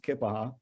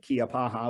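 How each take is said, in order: First: The name begins with a short 'kip' sound. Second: The name begins with a separate 'key-uh' sound. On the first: This is the proper local way to say it. The speaker calls it right. "but it's pronounced Kippaha" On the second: This is how most outsiders say it. The speaker calls it wrong. "Most people pronounce it Kiapaha"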